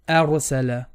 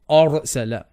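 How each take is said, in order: First: The opening vowel sounds light and thin. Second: The opening vowel sounds heavy and full-mouthed. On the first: The speaker calls it right. "it's a, r" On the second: The speaker calls it wrong. "Be also careful not to make the alif heavy. Don't say a"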